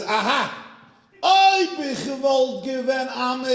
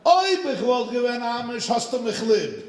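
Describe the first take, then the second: First: High, loud, slow mock proclamation in Yiddish; hammed-up triumphant Yiddish outburst; triumphant exclamation. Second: High, loud mock proclamation in Yiddish; hammed-up gotcha line in Yiddish; triumphant exclamation. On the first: The rabbi answers the woman in triumphant Yiddish. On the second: The rabbi repeats his Yiddish line to the woman, triumphant. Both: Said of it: "He went like this".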